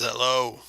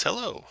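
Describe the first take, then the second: First: Lightly voiced growly orc greeting; a hint of orc growl. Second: High, lilting halfling greeting; older halfling woman, pitched up. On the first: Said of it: "it has a deep growly voice". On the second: Acted. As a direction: greet strangers in a much higher voice. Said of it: "She walks on up to you guys and says".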